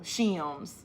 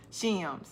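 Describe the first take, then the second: First: "Shims" said as a single syllable; one-syllable shims. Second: "Shims" stretched like "shi-ums"; two-syllable shims. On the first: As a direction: clip "Shims" into one beat. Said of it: "we Northerners say it as one syllable". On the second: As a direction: draw "Shims" out over two beats. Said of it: "Am I saying it two syllables?". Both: Shown as a demonstration.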